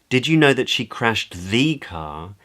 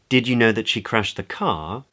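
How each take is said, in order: First: The word know carries the main stress. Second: The word car carries the main stress. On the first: It asks whether the listener was aware of it. "Questions whether the listener knows" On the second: It asks whether the listener knew it was the car, not something else. "Questions whether the other person knew that it was the car that she'd crashed as opposed to something else"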